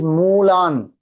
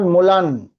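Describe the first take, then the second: First: The u after m is long. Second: The u after m is short. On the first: The speaker calls it right. "it is mulan. Mu is big U" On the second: The speaker calls it wrong. "It is not mulan"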